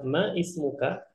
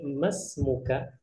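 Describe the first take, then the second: First: The words are separate, keeping the middle vowel. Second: The words run together, dropping the middle vowel. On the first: "untuk pembelajaran kita bilang ma ismuka, maka tidak masalah" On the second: "kita langsungkan membacanya masmuka, dan ini lebih afdol"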